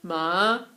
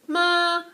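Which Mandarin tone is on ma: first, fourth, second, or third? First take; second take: third; first. First: It is said with Mandarin's third tone. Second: It is said with Mandarin's first tone.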